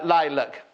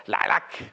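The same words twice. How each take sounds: First: Said in the usual way. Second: "lilac" as "lah-lack", lower; Caroline Lindsay's pronunciation. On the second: Retold or imitated. Presenter imitating her friend, "lilac" said low as "lah-lack". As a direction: mimic a friend's "lilac", both vowels open as in "lack". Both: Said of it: "as my friend Caroline Lindsay would say".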